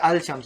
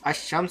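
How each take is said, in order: First: The L is clearly pronounced before the SH. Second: The L is silent, blending into a doubled SH. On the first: The speaker calls it wrong. "you don't say al shams" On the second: The speaker calls it right. "like that"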